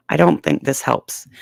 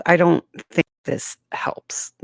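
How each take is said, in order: First: Said in the usual way. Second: Whispered close to the mic; right in your ear. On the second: Shown as a demonstration. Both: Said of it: "would you like it if I talked right in your ear like this".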